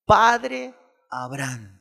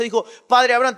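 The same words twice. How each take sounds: First: Slow, drawn-out mock cry; mild crying out. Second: Loud, quick reading of the cry; read-through plea. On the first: Preacher acting the rich man crying to Abraham, slowly. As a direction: stretch the plea slowly like a cry. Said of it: "dando voces, dijo". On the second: Acted. Preacher reading the rich man's cry to Abraham in passing. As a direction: toss it off inside the fast reading.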